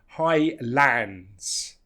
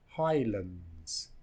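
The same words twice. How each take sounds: First: The second syllable has a full vowel. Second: The second syllable has a reduced vowel. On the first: The speaker calls it wrong. "notice it's not Highlands" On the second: The speaker calls it right. "because the second part is reduced"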